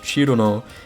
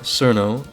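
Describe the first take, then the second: First: The name begins with a 'ch' sound. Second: The name begins with an 's' sound. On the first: The speaker calls it right. "I know that it's pronounced Chirono" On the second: The speaker calls it wrong. "and not Cirno"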